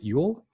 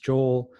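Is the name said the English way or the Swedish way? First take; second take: Swedish; English. First: The name is said the Swedish way. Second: The name is said the English way. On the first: The speaker calls it right. "pronounce it Yule" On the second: The speaker calls it wrong. "who you don't pronounce Joel"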